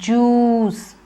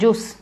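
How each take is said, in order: First: The vowel is long and stretched. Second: The vowel is short and clipped. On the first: The speaker calls it right. "It's juice. Long oo" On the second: The speaker calls it wrong. "Don't say juice"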